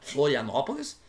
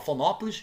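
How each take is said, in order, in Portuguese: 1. O nome é dito por inteiro, com todas as sílabas. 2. O nome é abreviado, com as sílabas do meio omitidas.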